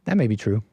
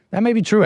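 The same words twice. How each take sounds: First: Said in the usual way. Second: That may be true pitched up high, half-amused; mock earnest concession. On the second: Real, not acted. Streamer half-jokingly concedes the Coco story, playfully higher.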